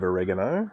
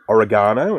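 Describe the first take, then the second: First: It is said the American way. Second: It is said the Australian way. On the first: "instead of oregano" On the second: "We say uh, oregano"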